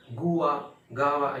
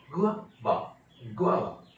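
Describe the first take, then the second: First: गुआ as goo-aa, गावा as gaa-va; first split गुआ, then गावा without the w glide; common mispronunciations. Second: गुआवा as gwaa-va; correct pronunciation. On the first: Teacher listing what everyone says, mistaken-sound demonstration. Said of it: "सब गलत है". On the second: Teacher giving guava's real pronunciation, gwaa-va demonstration. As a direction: glide g into waa in गुआवा. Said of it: "असली pronunciation है". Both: Shown as a demonstration.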